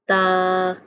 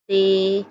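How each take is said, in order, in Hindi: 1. अक्षर का नाम अरबी की 'a' स्वर ध्वनि पर खत्म होता है। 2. अक्षर का नाम उर्दू की 'e' स्वर ध्वनि पर खत्म होता है। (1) "मिसाल के तौर पर" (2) "उर्दू तलफ़्फ़ुज़ से परहेज़ करें"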